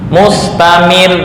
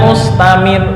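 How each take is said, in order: First: The doubled final consonant is pressed with emphasis. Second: The final consonant is said lightly without pressing. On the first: The speaker calls it right. "ketika ada tasdid itu dengan menekan" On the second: The speaker calls it wrong. "bukan mustamir"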